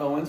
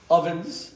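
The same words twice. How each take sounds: First: Said in the usual way. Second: "Ovens" with a clear v, ending on a rise; v not w. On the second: Shown as a demonstration. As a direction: bite the v in "Ovens". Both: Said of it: "not Owens".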